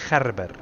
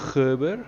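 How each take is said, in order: First: The name is given an Afrikaans pronunciation. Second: The name is given an English pronunciation. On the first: "But in Afrikaans, it's Gerber" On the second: "That's English"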